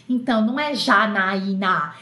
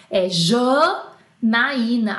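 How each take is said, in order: First: Said in the usual way. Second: "Janaína" stretched very slowly and emphatically; drawn-out name. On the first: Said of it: "se eu chegar pra o francês e falar assim". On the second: Shown as a demonstration. Over-explaining her name to a French listener, slowly. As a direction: drag out every syllable of "Janaína". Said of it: "Aí ferrou".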